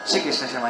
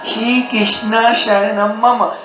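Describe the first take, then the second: First: Several sounds are dropped, giving a clipped form. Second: Every sound is pronounced, giving the full form. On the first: The speaker calls it wrong. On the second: The speaker calls it right.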